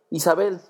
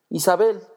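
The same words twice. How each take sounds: First: Second call of her name, a bit softer; softer repeated name. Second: Calling her name out high and loud; loud exclaimed name. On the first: Pilgrim repeating his sister's name, calmer echo. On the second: Pilgrim recognizing his sister, crying out her name. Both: A narrator's reading. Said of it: "exclamó de pronto".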